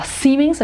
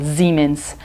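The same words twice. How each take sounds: First: Siemens with a hissing s at the start; wrong hard s. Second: Siemens begun with a buzzing z, lower; z sound. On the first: Teacher showing the wrong Brazilian Siemens. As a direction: say Siemens with a sharp s. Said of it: "a gente não fala". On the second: Teacher modelling the correct German Siemens. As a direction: say Siemens as Ziemens. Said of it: "a gente fala". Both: Shown as a demonstration.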